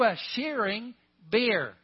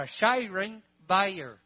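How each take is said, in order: First: Bear is said as one short syllable. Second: Bear is drawn out into two syllables.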